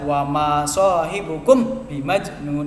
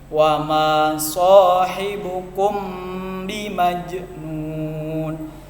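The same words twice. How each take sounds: First: The m is said clearly without a held hum. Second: The m blends into b with a held nasal hum. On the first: The speaker calls it wrong. "itu jelas salah" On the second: The speaker calls it right. "mim sama ba-nya digabung sehingga jadi samar-samar. Sama-sama dengung, ditahan"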